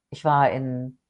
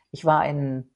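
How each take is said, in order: Both takes have the same delivery.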